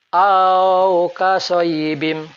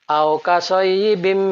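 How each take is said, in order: First: The opening vowel is drawn out long. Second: The opening vowel is kept short. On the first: The speaker calls it wrong. "Contoh bacaan yang salah" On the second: The speaker calls it right. "Yang betul"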